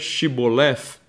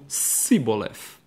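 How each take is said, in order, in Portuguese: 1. A palavra começa com o som de sh, chiado. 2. A palavra começa com o som de s, sibilado. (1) "E a outra tribo pronuncia chiando" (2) "Uma dessas tribos pronuncia Shibboleth como Siboleth"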